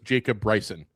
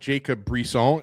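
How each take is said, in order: First: The surname is said as Bryson. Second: The surname is said as Brisson. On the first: This is how the name is really said. The speaker calls it right. "It's just" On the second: This is how many people say it. The speaker calls it wrong. "it's not"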